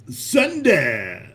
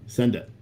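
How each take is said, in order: First: Emphatic send it. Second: Said in the usual way. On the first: Real, not acted. Urges April to send it, emphatic. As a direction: send it punched out with a fall.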